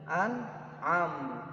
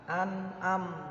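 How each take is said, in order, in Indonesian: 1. Bunyi tengahnya adalah ain dari tenggorokan. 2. Bunyi tengahnya adalah a biasa. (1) "harusnya an'am" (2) "diganti dengan a"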